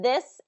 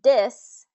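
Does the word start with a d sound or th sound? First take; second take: th; d. First: It begins with a soft th sound. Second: It begins with a hard d sound. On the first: The speaker calls it right. "so it should be th th" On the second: The speaker calls it wrong. "with a D instead of a English T H sound"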